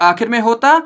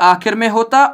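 No difference in how they are said.

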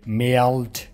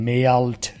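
The two takes are said the same way.

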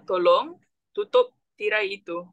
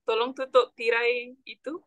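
First: It is said more slowly. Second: It is said at normal speed.

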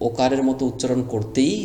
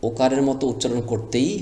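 Both takes have the same delivery.

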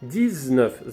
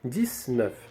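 First: The consonant before 'neuf' is a z sound. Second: The consonant before 'neuf' is an s sound. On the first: This is the standard pronunciation. "Нормативна вимова – 19 з" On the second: This is a casual spoken pronunciation. "в розмовному мовленні можна почути 19"

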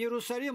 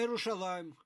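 First: The name is said with an s sound. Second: The name is said with a sh sound. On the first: This is the form borrowed from the Greeks. The speaker calls it wrong. "Не Иерусалим" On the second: This is the original form of the name. The speaker calls it right. "а Иерушалаим"

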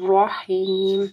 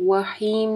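First: The word begins with a clear r sound. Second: The word begins with a w-like sound. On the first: The speaker calls it right. "ٹھیک ہے, رحیم" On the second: The speaker calls it wrong. "اس میں واو کی آواز نہیں آنی چاہیے, وحیم نہیں"

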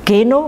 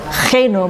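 First: The G is a hard stop sound. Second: The G is a throaty friction sound. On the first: This is how Indonesians say the name. "in Indonesië noemen je Geno" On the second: This is how it is said in the Netherlands. "maar hier moet ik jou Geno met"

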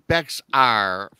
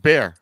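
First: The word is said with an audible x sound. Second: The word sounds like bear, with no x sound. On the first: The speaker calls it wrong. "I've been saying Bexar forever" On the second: The speaker calls it right. "Now I know it's bear"

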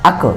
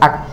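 First: The final k is released with a bouncing echo. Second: The final k is held without any bounce. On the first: The speaker calls it wrong. "যদি কেউ কলকলা করে এইভাবে বলে আক আক, এইভাবে বললে ভুল হবে" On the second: The speaker calls it right. "এটা বলতে হবে হামজা কাফ জবর আক"

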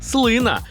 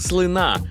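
First: The stress is on the first syllable. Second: The stress is on the second syllable. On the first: The speaker calls it right. "а правильно казати – слина" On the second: The speaker calls it wrong. "От і я хибно думав, що слина"

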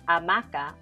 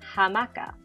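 First: The word starts with a silent h. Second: The word starts with an audible h sound. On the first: This is the Spanish pronunciation. The speaker calls it wrong. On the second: This is the original Taíno pronunciation. The speaker calls it right.

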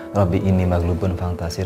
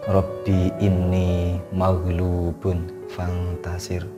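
First: The words are recited at a fast pace. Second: The words are recited at a slow pace. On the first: The speaker calls it wrong. "mungkin cara pengucapan saya terlalu cepat ya" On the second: The speaker calls it right. "mari kita ulangi lagi ya secara agak lambat"

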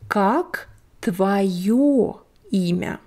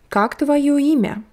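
First: The phrase is said slowly and carefully. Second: The phrase is said quickly and smoothly.

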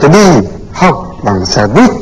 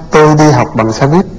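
First: It is said with strong stress on some words. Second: It is said flat, with no sentence stress. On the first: This is how a foreigner says it. "người nước ngoài nó nói thì nó sẽ nói là ... Tức là nó có trọng âm như thế" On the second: This is how a native speaker says it. "Thế thì mình nói ngang ngang"

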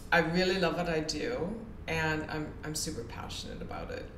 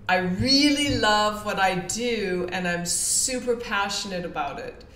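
First: It is said flatly, without lively inflection. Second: It is said with lively, enthusiastic inflection. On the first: The speaker does not truly mean it. The speaker calls it wrong. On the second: The speaker truly means it. The speaker calls it right.

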